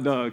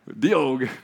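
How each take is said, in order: First: The name is said as one syllable. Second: The name is said as two syllables. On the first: The speaker calls it wrong. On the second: The speaker calls it right.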